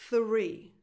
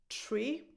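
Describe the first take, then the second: First: The word begins with a voiceless th sound. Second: The word begins with a plain t sound. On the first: The speaker calls it right. "So you start with a voiceless th" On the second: The speaker calls it wrong. "is either pronounced tree or free"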